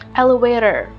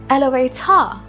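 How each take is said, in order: First: The final R is clearly pronounced. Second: The final R is dropped. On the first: "the R is very well pronounced" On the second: "They wouldn't pronounce the R"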